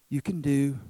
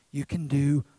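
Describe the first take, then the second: No difference in how they are said.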